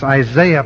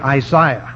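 First: The name is said in a standard English way. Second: The name is said in a Canadian way. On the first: "probably better in the English" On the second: "I go back to my Canadian heritage and say Isaiah"

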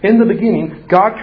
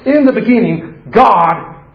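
First: It runs straight on past the word God. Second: It stops and lingers after the word God. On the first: The reader hurries on to what God does. The speaker calls it wrong. "We read it like this" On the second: The reader dwells on who God is. The speaker calls it right. "Have you ever read Genesis 1:1 that way?"

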